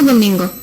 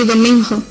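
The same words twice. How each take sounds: First: The g is pronounced as a hard g. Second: The g is pronounced like an aspirated h. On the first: "Normalmente non se dá geada cando o G ten antes un N" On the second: "pero hai quen di"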